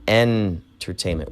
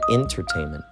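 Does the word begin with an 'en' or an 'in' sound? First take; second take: en; in. First: The word begins with an 'en' sound. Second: The word begins with an 'in' sound. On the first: "E N" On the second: "I N. Some people can pronounce it that way"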